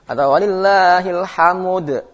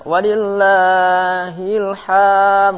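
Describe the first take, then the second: First: "walillahil hamud" sung with an added u before the d; wrong extra vowel. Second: "walillahil ham" sung high and slow, the final d dropped; wrong ending. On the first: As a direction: chant "hamud" with a vowel after m. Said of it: "Jadi hamud". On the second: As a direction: chant "walillahil ham" without the closing d. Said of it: "nggak boleh". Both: Shown as a demonstration.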